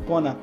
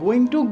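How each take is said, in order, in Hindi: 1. दोनों शब्द मिलकर एक छोटा शब्द बन गए हैं। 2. दोनों शब्द पूरे और अलग-अलग बोले गए हैं।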